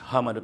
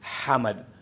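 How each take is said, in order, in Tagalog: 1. Nagsisimula ito sa magaan at payak na tunog ng H. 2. Nagsisimula ito sa malalim at may hiningang H mula sa lalamunan. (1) "Normal na H, Hamad, pero hindi yun ang tama" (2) "So ganito talaga siya"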